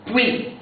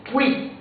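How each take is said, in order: Both takes have the same delivery.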